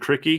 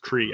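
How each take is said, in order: First: The name is said with two syllables. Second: The name is said with one syllable. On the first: The speaker calls it wrong. "I said it wrong" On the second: The speaker calls it right. "It's Cree, I think"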